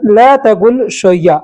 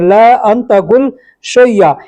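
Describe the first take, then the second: First: The words are run together into one. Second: The words are said separately, one by one. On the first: "एक में मिला के बोलेंगे" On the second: "इसको अगर अलग अलग बोलेंगे"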